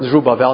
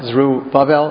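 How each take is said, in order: First: The name is said as one unbroken word. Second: The name is split into two separate words. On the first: It is a single personal name. The speaker calls it right. "It's one word" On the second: It is taken as a phrase of two words. The speaker calls it wrong.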